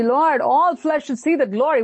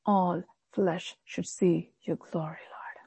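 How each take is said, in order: First: Higher, lifted prayer; fervent prayer. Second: Slow, hushed prayer whisper. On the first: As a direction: proclaim the prayer with fervour. Repeating the prayer with fervour. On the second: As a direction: breathe the prayer softly and slowly. Modelling a humble prayer. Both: Shown as a demonstration.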